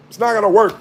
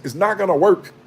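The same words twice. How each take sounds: First: Higher, louder insistent repeat; emphatic repeat. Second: Said in the usual way. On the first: Real, not acted. Warning the church about end times, louder insistent repeat. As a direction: hammer the point home harder.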